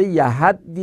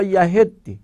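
First: یهدی with an open "a" before the doubled d; yahaddi with a-vowel. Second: یهدی with a short "e" before the doubled d; yahiddi with e-vowel. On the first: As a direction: say یهدی as "ya-HAD-di", a after the h. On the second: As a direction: say یهدی as "ya-HED-di", e after the h. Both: Shown as a demonstration. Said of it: "یهدی یا یهدی".

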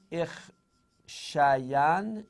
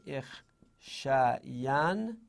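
First: Drawn out. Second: Drawn-out repeat. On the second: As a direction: drag out «اخشین» syllable by syllable. («اخشین» خیلی کشیده و آرام) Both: Shown as a demonstration.

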